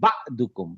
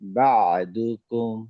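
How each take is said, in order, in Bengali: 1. একটা তীক্ষ্ণ, চাপা ঝটকা প্রথম সিলেবলটিকে কেটে দেয়। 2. প্রথম সিলেবলের পরে একটা নরম, গলার চাপ আসে। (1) "হামজার উপর যদি সুকুন হতো তখন বলতাম ... বা ধাক্কা দিতাম" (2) "যেহেতু এটা আইন গলার ভিতর থেকে আসবে"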